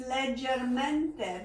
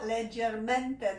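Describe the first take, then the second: First: Said in the usual way. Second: Leggermente spelled out slowly, every syllable clear: le-ger-MEN-te; slow, careful Italian word. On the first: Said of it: "I'm gonna say it's leggermente". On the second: Shown as a demonstration. Teacher slowly spelling out leggermente, carefully. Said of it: "That is the word".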